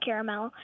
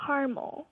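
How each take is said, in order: First: Caramel said as CARE-uh-mel; three-syllable pronunciation. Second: Caramel squeezed into two syllables, CAR-mul; mom's pronunciation. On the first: Shown as a demonstration. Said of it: "so I call it caramel". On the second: Retold or imitated. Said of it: "my mom calls it caramel".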